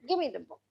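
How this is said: The tone is harsh, irritated and commanding. The speaker is giving an order. "slightly authoritative and probably even I have got irritated"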